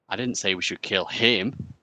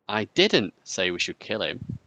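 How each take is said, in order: First: The stress falls on the word 'him'. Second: The stress falls on the word 'didn't'.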